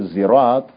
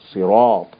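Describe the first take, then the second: First: It begins with a voiced z sound. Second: It begins with a heavy, emphatic s sound. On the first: "But when they say zirat" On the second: "Make it up"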